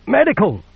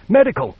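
First: Higher, even more desperate raw cry; gritty plaintive shout. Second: Loud raw cry for a medic; gritty plaintive shout. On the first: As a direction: call again, rising and pleading. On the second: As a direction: call out hoarse and pleading. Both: Acted. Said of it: "her voice gritty and plaintive".

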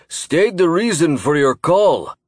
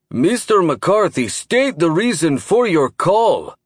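First: Slow, loud gruff commander; gruff booming voice. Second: Slow, louder gruff demand; gruff booming voice. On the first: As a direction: bark the order, slowly. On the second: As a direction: repeat the order, heavier and slower. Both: A narrator's reading. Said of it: "his gruff voice boomed".

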